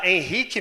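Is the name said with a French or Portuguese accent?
Portuguese. The name is said with a Portuguese accent. "Henrique mesmo"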